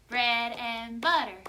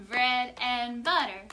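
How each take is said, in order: No difference in how they are said.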